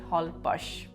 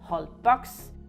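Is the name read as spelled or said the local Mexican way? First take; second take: Mexican way; as spelled. First: The name is said the local Mexican way. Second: The name is read the way it is spelled. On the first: This is how local people say the name. "the Mexican pronounce it" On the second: This is how an outsider would read the name. "you would normally pronounce it"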